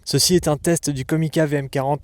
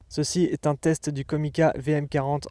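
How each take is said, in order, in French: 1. Les hautes fréquences sont accentuées. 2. L'audio provient d'une piste de secours à plus bas niveau. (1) "en mode High Frequency Boost" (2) "en mode Safety"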